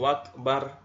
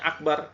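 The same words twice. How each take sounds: First: The word begins with a w sound. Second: The word begins with a glottal stop. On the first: The speaker calls it wrong. "mengganti hamzah dengan waw" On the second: The speaker calls it right. "harusnya akbar"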